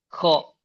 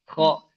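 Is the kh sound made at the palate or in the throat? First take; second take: palate; palate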